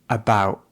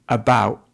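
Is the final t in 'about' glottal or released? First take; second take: glottal; glottal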